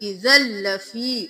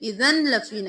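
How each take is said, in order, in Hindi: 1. n, दोहरे l की आवाज़ में मिल जाता है। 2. 'lafi' से पहले एक अलग n सुनाई देता है। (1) "जा जबर लाम जल" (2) "नहीं करना"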